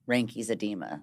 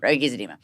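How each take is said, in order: First: The first word is said with its n sound. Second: The first word is said without its n sound. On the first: The speaker calls it right. "I think is how you say it" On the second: The speaker calls it wrong. "I always skip it and kind of say like Reiki's"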